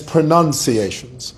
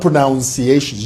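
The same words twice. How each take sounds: First: The second syllable sounds like 'nun'. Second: The second syllable sounds like 'noun'. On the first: The speaker calls it right. "it is pronunciations" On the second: The speaker calls it wrong. "not pronunciations"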